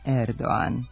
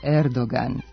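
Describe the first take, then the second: First: No g sound is heard mid-word. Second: A clear g sound is heard mid-word. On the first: The speaker calls it wrong. "u kojem se glas G ne čuje" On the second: The speaker calls it right. "Turski predsjednik je Erdoğan"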